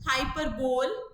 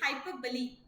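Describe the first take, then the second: First: The word ends on a bare l sound. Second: The word ends on an ee vowel sound. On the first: The speaker calls it wrong. "Some teachers pronounce as हाइपरबोल" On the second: The speaker calls it right. "But जो correct pronunciation is हाइपरबोली"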